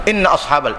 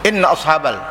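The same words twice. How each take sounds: No difference in how they are said.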